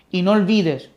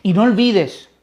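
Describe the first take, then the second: No difference in how they are said.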